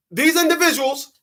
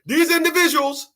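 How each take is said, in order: Both takes have the same delivery.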